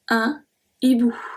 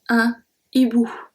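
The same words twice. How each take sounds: First: The article stays apart from the noun. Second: The same.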